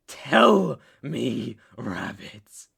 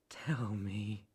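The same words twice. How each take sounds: First: Forceful order. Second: Low, hushed command; menacing whisper. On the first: Captor demands an answer from rabbit, forceful order. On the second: Captor presses the silent rabbit, menacing whisper. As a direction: whisper the order. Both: Acted.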